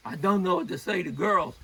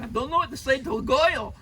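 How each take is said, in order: First: Said in the usual way. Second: Louder, high-pitched New York accent; mock New York accent, pitched up. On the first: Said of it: "but maybe in a New York accent". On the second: Shown as a demonstration. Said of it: "maybe in a New York accent".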